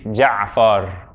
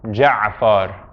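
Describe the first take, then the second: The two takes are said the same way.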